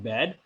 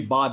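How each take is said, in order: First: The vowel sounds like English 'bad'. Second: The vowel is a long open 'ah' sound. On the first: The speaker calls it wrong. "not bad" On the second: The speaker calls it right. "The pronunciation would be Bad"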